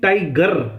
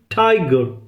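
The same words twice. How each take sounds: First: The stress is on the second syllable. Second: The stress is on the first syllable.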